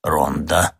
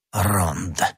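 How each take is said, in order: First: Lower, absent-minded repetition; mechanical echo. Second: Dismissive Jesuit sneer, understated; contemptuous. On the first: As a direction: echo it automatically, without thought. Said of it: "машинально повторил Кюре". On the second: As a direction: say it with quiet disdain. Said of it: "презрительно произнёс иезуит". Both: A narrator's reading.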